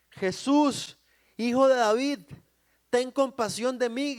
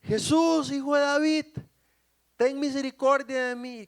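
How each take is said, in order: First: Loud, high cry for mercy; shouted plea. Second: High, loud, sustained desperate cry; even louder shout. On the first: Blind man calls to Jesus for mercy, shouting. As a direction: call out over a crowd. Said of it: "empieza a él a gritar". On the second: Blind man cries out over those silencing him, shouting harder. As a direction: belt out the plea over the crowd. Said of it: "se puso a gritar aún más fuerte". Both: Acted.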